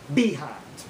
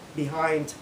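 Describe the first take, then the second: First: The stress is moved to another syllable. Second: The stress falls in its usual place. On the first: "we change the emphasis" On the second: "you talk about"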